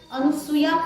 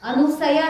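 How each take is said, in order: First: The name is said as a-nu-soo-ya. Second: The name is said as a-nu-sa-ya. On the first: "अनुसूया पण नाही" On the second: "अनुसया नाही"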